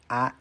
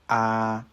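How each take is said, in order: First: The vowel is short with no pitch change. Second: The vowel is held long at a level pitch. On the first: "the vowels that are relatively similar to Spanish" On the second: "Vowels can also be long"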